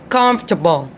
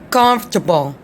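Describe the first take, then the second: The two takes are said the same way.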